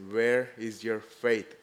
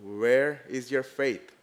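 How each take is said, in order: First: Slow searching question. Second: "Where" stressed, slow and louder; slow repeat. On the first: Retold or imitated. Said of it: "he says". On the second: Acted. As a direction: lean hard on "Where" and slow down. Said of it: "repeated to congregation".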